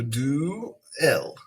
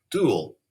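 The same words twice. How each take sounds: First: "do-el" said as two separate syllables, do and el; syllables split apart. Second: Said in the usual way. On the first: Shown as a demonstration. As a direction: break "do-el" into two clear beats, do then el. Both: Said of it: "So do-el".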